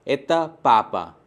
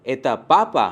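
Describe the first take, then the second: First: एता पापा slow and falling; slow falling statement. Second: पापा stressed as a question; एता पापा as a question with the weight on पापा; question intonation. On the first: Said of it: "दूसरे sentences पे". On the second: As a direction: ask by lifting पापा. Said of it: "सिर्फ एक intonation add होगा". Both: Shown as a demonstration.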